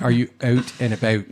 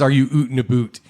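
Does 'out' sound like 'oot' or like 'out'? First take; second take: out; oot. First: The vowels are plain 'ow' sounds. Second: The vowels are exaggerated 'oo' sounds. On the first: This is how the accent really sounds. The speaker calls it right. "It's like" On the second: This is the overdone stereotype of the accent. The speaker calls it wrong. "nobody says"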